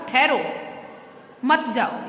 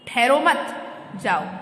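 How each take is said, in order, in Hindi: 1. विराम पहले शब्द के बाद आता है। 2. विराम दूसरे शब्द के बाद आता है। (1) "रुको अभी मत जाओ" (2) "रुको मत सीधे जाओ"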